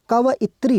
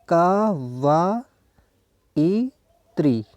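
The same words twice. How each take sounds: First: Said in the usual way. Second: कवयित्री extremely slow, ka-va-i-tree; drawn-out syllables with gaps in कवयित्री. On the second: Shown as a demonstration. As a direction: pull कवयित्री apart, each syllable held long. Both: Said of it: "उसका उच्चारण होता है".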